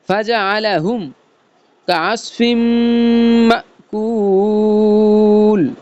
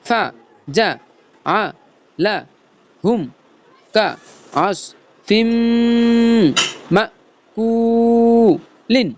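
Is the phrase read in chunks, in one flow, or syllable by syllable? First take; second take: in chunks; syllable by syllable. First: It is said in short chunks with breaks. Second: Each syllable is said separately with breaks. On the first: "কাটা কাটা শুরু করব" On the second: "ভাঙ্গা ভাঙ্গা শুরু করব"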